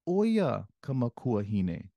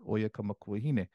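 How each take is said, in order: First: The first word carries strong, exaggerated emphasis. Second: The first word is said plainly, without extra emphasis. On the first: The speaker calls it wrong. "I'm I'm really emphasizing the first part" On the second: The speaker calls it right. "Normally you don't say it like that. You just say"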